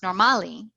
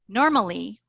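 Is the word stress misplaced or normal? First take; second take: misplaced; normal. First: The stress falls in an unusual place. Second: The stress falls in its usual place. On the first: The speaker calls it wrong. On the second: The speaker calls it right.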